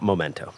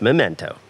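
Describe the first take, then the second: First: The first syllable sounds like 'moh'. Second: The first syllable sounds like 'meh'. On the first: The speaker calls it wrong. "not Momento" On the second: The speaker calls it right. "It is pronounced Memento"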